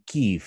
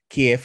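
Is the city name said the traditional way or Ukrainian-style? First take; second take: Ukrainian-style; traditional. First: The name has a more Ukrainian-style pronunciation. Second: The name has its traditional, non-Ukrainian pronunciation. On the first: This is the newer, trendier way of saying it. "ya con la pronunciación un poco más a la ucraniana" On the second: This is the older, usual way of saying it. "ya no dicen Kiev"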